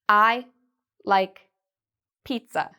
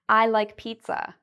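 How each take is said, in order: First: Each word is cut off from the next. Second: The words flow smoothly into each other. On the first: The speaker calls it wrong. "Notice that's choppy. It sounds like I'm cutting each word" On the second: The speaker calls it right. "That has a nice flow to it"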